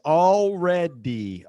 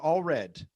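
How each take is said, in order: First: It is said in three syllables, ending with dy. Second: It is said in two syllables, without the final d. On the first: The speaker calls it right. "Three syllables" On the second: The speaker calls it wrong. "o que que o nativo vai entender se você falar all red? Tudo vermelho"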